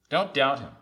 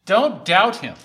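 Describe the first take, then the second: First: Said in the usual way. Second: Loud, raised command to the congregation; emphatic, high and loud warning; forceful exhortation. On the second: Real, not acted. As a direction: hit it hard from the pulpit. Preacher's forceful charge, then repeated.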